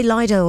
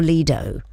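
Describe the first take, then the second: First: Lido with a long I, LIE-doh. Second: Lido with an EE sound, LEE-doh. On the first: Host asking guest which pronunciation he uses, Lido as LIE-doh. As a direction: say Lido with first syllable like "lie". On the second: Host offering guest the other pronunciation, Lido as LEE-doh. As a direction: say Lido with first syllable like "lee". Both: Shown as a demonstration. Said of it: "do you say Lido or Lido".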